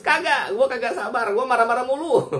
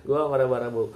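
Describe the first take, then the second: First: High, loud, hammed-up snapping; joking rant pitched high and loud; mock angry outburst. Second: Chuckling through "Gua marah-marah mulu"; amused laughing retake; laughing repeat. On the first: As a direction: play-act losing your temper, pitched way up and loud. Mock answer to praise of patience. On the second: Real, not acted. Repeats own line laughing.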